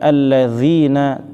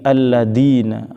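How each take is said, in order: First: The middle consonant is a soft th sound. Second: The middle consonant is a d sound. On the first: The speaker calls it right. "bukan alladzina" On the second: The speaker calls it wrong. "dibaca dengan ... huruf apa? Dal"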